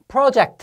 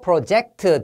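First: The stress is on the first syllable. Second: The stress is on the second syllable. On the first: It is the noun meaning a plan. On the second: It is the verb meaning to plan.

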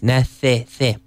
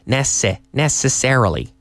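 First: The s is lisped with the tongue out. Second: The s is hissed with the teeth touching. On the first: The speaker calls it wrong. "the Spanish tongue loves to come out on that" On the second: The speaker calls it right. "I can say that with my teeth touching without sticking my tongue"

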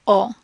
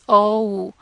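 First: The vowel stays short and steady. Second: The vowel glides into a second sound. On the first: This is how the vowel sounds in Spanish. "In Spanish, that does not happen" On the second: This is how the vowel sounds in English. "it's kind of two sounds put together"

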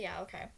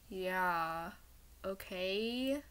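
First: It is said in a plain, casual way. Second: It is said in a dramatic voice.

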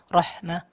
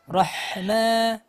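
First: The h sound is held back and cut short. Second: The h sound flows out with audible breath. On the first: The speaker calls it wrong. "jangan sampai cuma rohma, rohma itu kan kertahan" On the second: The speaker calls it right. "sempurnakan rohma"

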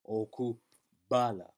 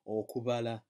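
First: The b is a hard, plosive stop. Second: The b is soft, almost like a v. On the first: The speaker calls it wrong. "you might pronounce it as a hard B, a plosive B" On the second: The speaker calls it right. "So you pronounce that as okubala ... It's a very soft B"

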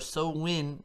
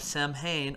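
First: It is said in the local Irish pronunciation. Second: It is said in a non-Irish pronunciation.

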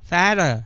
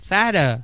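Both takes have the same delivery.

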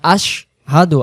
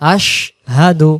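Both takes have the same delivery.

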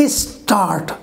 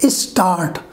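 Both takes have the same delivery.

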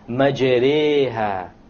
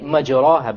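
First: The long vowel after r leans toward ee. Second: The long vowel after r is a plain a. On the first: The speaker calls it right. "An imala is pronounced as this" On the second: The speaker calls it wrong. "you would say مَجْرَاهَا, but that's a mistake"

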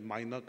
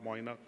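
First: The first syllable sounds like 'my'. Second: The first syllable sounds like 'moy'. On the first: The speaker calls it right. "his name is Mainak" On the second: The speaker calls it wrong. "and not Moinak"

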